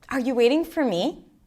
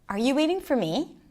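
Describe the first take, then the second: First: It is said in a warm, friendly tone. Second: It is said in a warm, friendly tone.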